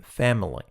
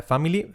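First: FAMILY squeezed to "fem-lee", falling; model pronunciation. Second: FAMILY in three Spanish syllables, "fa-mee-lee", rising; wrong pronunciation. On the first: Teacher giving learners the model, correct pronunciation. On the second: Teacher showing learners the mistake, wrong pronunciation. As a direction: say FAMILY "fah-mee-lee", lifting the end. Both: Shown as a demonstration. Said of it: "Nada de family".

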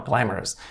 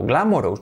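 First: "glamorous" said GLAM-er-us; correct English pronunciation. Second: "Glamorous" read GLA-mo-rohs; full Spanish vowels in "Glamorous"; wrong, as spelt. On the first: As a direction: reduce the endings in "glamorous". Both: Shown as a demonstration. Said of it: "no, glamorous".

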